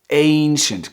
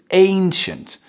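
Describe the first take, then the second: First: Said in the usual way. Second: "Ancient" said clearly and a bit higher for learners to copy; model for repetition. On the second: Shown as a demonstration. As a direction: say "Ancient" slowly and clearly for them to repeat. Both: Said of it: "Can you repeat after me?".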